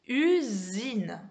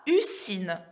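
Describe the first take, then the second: First: The middle consonant is a buzzed z sound. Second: The middle consonant is a hissed s sound. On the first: The speaker calls it right. "je dis usine" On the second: The speaker calls it wrong. "Je dis pas usine"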